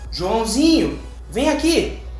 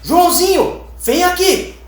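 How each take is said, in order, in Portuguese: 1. A chamada é dita em tom calmo e gentil. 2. A chamada é dita em tom severo e sério. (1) "A gente já vai mais despreocupado, vai um pouco mais relaxado" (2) "A gente já vai um pouco mais preocupado"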